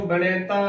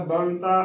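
First: "ਬਣੇਤਾ" with an ay vowel after the n; wrong pronunciation. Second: "ਬਣਤਾ" in two syllables, ban-taa; correct pronunciation. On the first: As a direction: put an extra é in "ਬਣੇਤਾ": ba-né-taa. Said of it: "ਉਚਾਰਨ ਨਹੀਂ ਕਰਨਾ". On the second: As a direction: run n straight into t in "ਬਣਤਾ". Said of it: "ਬਣਤਾ ਉਚਾਰਨ ਕਰਨਾ ਹੈ". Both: Shown as a demonstration.

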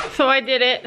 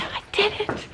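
First: Said in the usual way. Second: Breathy triumphant whisper, higher; proud whisper. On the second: Real, not acted. Proud whisper to herself after catching her horse. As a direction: whisper the win to yourself.

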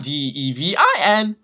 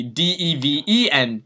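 First: Letter by letter, punching the I; spelled out, stressing I. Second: Letter by letter, leaning on the last E; spelled out, stressing E. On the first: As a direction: spell D E V I N slowly, with I raised. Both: Shown as a demonstration. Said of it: "not D E V I N".

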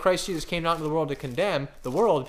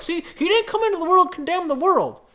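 First: Said in the usual way. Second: High, loud, whiny-sounding mock protest; exaggerated high-pitched parody of an argument; mocking objector. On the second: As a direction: crow it like a triumphant objector. Mimicking people who object to him.

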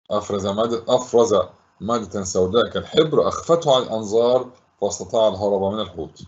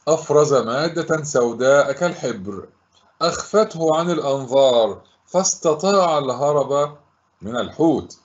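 First: Lower, quicker run through the answer; brisker recap. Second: Phrase by phrase with pauses; measured model answer. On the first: Teacher recapping the answer for pupils, brisk and low. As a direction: repeat it matter-of-factly, lower and brisker. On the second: Teacher giving pupils the answer to recall, measured and deliberate. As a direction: deliver it deliberately, piece by piece. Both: Shown as a demonstration.

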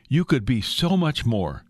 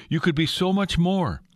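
First: Said in the usual way. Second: Higher, insistent coaxing; rising temptation. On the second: Acted. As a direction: push the offer higher like a tempter. Satan's temptation repeated, intensified.

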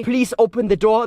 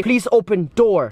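First: Said in the usual way. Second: Yorkshire style, "Please open door" with "the" left out; Yorkshire accent drop. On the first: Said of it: "they don't say". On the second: Shown as a demonstration. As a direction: drop the "the" like a Yorkshire speaker, slower. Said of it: "they don't say "the".

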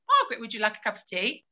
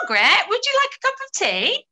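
First: Asking Margaret about tea quickly, then waiting in silence; quick plain question. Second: High, loud, sing-song offer of tea; asking Margaret about tea in a bright high voice; cheery offer. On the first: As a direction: rattle it off, then wait. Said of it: "if Margaret didn't reply". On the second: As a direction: chirp it like a hostess with a tray. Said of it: "we do a little example of this". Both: Shown as a demonstration.

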